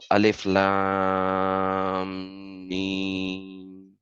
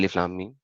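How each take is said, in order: First: The vowels are drawn out and prolonged. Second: The vowels are short, not prolonged. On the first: The speaker calls it right. "You have to pronounce it the way the diacritical marks are being presented" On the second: The speaker calls it wrong. "you can't say"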